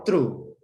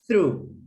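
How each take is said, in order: First: The word begins with a t sound. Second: The word begins with a th sound. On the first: The speaker calls it wrong. "Don't say true" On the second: The speaker calls it right. "Try to pay attention on those little sounds like the th"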